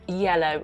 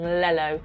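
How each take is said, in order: First: The word begins with a Y sound. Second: The word begins with an L sound. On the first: The speaker calls it right. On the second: The speaker calls it wrong.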